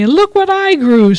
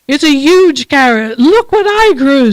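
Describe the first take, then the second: First: A touch higher, matching the boast; lightly voiced rival bunny. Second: A hint of a higher, boastful bunny; lightly voiced proud bunny. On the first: Other bunny answers the boast, lightly raised and proud. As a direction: answer the brag right back. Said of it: "says the other bunny". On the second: Bunny boasting to its neighbour, lightly voiced and proud. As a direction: brag about the carrot, a little lifted. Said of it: "says one bunny".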